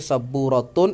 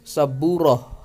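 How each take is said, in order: First: The word ends with a full t-un ending. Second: The word ends with an h sound. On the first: The word is read in connected speech. "dibaca ta" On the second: The word is read at a stop. "ketika diwaqafkan dibaca H"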